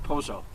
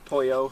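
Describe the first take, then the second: First: It is said with an Argentine Spanish pronunciation. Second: It is said with a Mexican Spanish pronunciation. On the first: "for Argentines it would be" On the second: "in Mexico"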